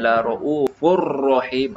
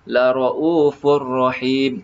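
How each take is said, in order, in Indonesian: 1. R digetarkan kuat dan lama. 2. R hanya sedikit bergetar. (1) "Cuma jangan terlalu tebal ... bukan" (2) "ada getaran tetapi minima"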